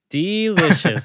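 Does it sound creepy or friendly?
friendly. It is said without a creepy, stalker-like tone.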